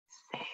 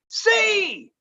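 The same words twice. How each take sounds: First: The word is whispered softly. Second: The word is shouted loudly.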